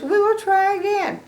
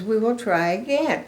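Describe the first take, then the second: First: Much higher echoing voice; eager Gerald echo. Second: Said in the usual way. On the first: Acted. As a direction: echo her line eagerly. Gerald echoes Piggy.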